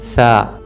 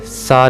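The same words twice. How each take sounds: First: The consonant is a soft th, tongue at teeth. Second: The consonant is a hissing, whistled s. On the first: The speaker calls it right. "इसे पढ़ेंगे सा" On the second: The speaker calls it wrong. "सा नहीं पढ़ेंगे"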